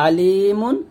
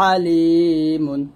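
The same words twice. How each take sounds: First: আলিমুন with a light, plain glottal আ; hamza version. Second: আলিমুন with a long, pressed, thin throat আ; pressed ain. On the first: Teacher contrasting hamza and ain. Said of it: "এখানে এটা হবে". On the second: Teacher contrasting ain with hamza. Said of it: "একটু চাপ দিয়ে চিকন করে বলবো". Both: Shown as a demonstration.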